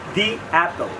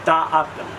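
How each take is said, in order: First: 'The' is said as 'thee', with an ee sound. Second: 'The' is said as 'thuh', with a short vowel. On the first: The speaker calls it right. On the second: The speaker calls it wrong. "Not দা Apple"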